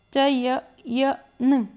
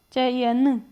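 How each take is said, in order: First: चय-, य-, न split into separate slow syllables. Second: Said in the usual way. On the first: Shown as a demonstration. Teacher to students, breaking चयन into slow syllables. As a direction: stretch चय-, य-, न apart, slowly, one beat per syllable. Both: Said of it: "बोलिए, चयन में आपको कैसी ध्वनि आ रही?".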